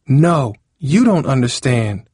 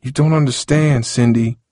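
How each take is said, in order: First: Slow, high, emphatic retort; moderately raised angry yell; yelling back. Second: Higher-pitched, defensive protest; mildly defensive objection. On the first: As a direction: throw it back at him, raised voice. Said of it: "Cindy yelled". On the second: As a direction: push back in self-defence. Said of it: "Harold said defensively". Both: A narrator's reading.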